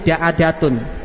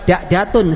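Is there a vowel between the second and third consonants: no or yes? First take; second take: yes; no. First: The second consonant carries an a vowel. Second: The second consonant carries no vowel. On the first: The speaker calls it right. "menjadi da'adatun" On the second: The speaker calls it wrong. "bukan da'datun, salah"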